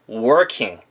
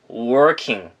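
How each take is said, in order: Both takes have the same delivery.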